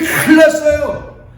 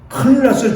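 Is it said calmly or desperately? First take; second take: desperately; calmly. First: It is cried out with desperate urgency. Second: It is said in a calm, plain way.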